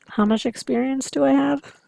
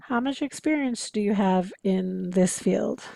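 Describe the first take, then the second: First: Higher and louder, weight on I; How much experience do I have, with I raised and stretched; echoic stalling question. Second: Said in the usual way. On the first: Shown as a demonstration. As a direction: repeat it back to buy time. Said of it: "The listener is actually trying to buy time". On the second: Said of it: "The listener is actually trying".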